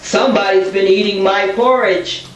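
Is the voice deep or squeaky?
deep. It is said in a gruff, deep voice.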